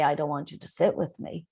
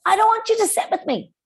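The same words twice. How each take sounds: First: Calm, even and polite. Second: Much higher and louder, fast and rude; a child snapping rudely at a classmate. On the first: Teacher models a polite refusal to a classmate, calm. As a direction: say it kindly, no edge. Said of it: "in a polite tone of voice". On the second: Teacher demos a rude child refusing a classmate, high and loud. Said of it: "However, in a, in a polite tone of voice". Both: Shown as a demonstration.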